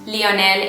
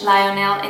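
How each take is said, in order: First: The name is pronounced with Spanish sounds. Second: The name is pronounced with English sounds. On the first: "Lionel in Spanish" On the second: "Lionel in English"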